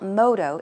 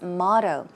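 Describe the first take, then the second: First: It is pronounced with a Korean-style accent. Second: It is pronounced with a standard English accent. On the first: The speaker calls it wrong. "It's not motto" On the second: The speaker calls it right. "it's motto"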